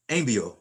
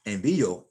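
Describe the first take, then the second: First: Envío said wrongly as EN-vyo, first syllable stressed. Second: Envío with the accented í stressed. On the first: Teacher showing the word without its accent mark, stress up front. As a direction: hit the EN of envío and let the rest slide. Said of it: "if it didn't have an accent mark on it". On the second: Teacher showing students where the accent mark falls, middle-syllable stress. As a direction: say Envío as en-VEE-o, punching the middle. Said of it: "Now watch this". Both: Shown as a demonstration.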